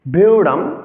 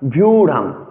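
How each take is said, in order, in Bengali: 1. শব্দটি vy যুক্তব্যঞ্জন দিয়ে শুরু। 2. শব্দটি vy যুক্তব্যঞ্জন দিয়ে শুরু।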